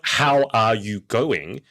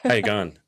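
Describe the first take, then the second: First: Each word is said separately and fully. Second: The words run together with little mouth movement. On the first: "It's not" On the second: "it's all one word. ... my mouth hardly moves"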